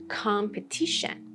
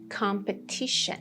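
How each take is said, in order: The two takes are said the same way.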